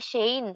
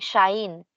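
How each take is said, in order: First: The word is said like 'shane'. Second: The vowels merge so it sounds like 'shine'. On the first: "hindi shane" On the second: "conversational Japanese, nagiging shine yung pagkaka-pronounce nila"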